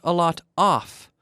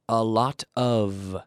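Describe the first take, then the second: First: The last word ends in a voiceless F sound. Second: The last word ends in a voiced V sound. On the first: The speaker calls it wrong. "Not a lot off. No, no" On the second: The speaker calls it right. "the word of is pronounced the same. Of"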